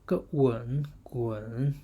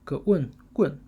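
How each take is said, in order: First: The syllable is said with the third tone. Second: The syllable is said with the fourth tone. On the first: "third tone" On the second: "fourth tone"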